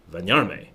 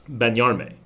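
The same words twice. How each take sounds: First: "Benyarme" begun with a V, as "Venyarme"; V sound for B. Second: "Benyarme" with a clear English B; American accent. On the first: Showing viewers the real Spanish "Benyarme", V sound. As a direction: say "Benyarme" with V replacing the B. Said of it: "with a V sound". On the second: Learner showing his own mistaken "Benyarme", American accent. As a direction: say "Benyarme" starting on a hard American B. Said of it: "That is my American accent". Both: Shown as a demonstration.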